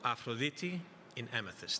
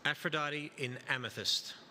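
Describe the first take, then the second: First: The name is said with a Greek pronunciation. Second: The name is said with an English pronunciation.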